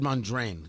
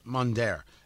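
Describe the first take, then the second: First: The name ends with an n sound. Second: The name ends with an r sound. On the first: The speaker calls it wrong. "I said Mondraine. Yeah, I always get the N moved around" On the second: The speaker calls it right. "That's his name"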